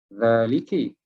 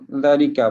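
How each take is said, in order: First: The word ends with an 'i' vowel. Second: The word ends with an 'a' vowel. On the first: The speaker calls it wrong. "kenapa kita tidak baca dengan uh, uh, zaliki? ... Tidak begitu" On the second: The speaker calls it right. "Semua zalika belaka"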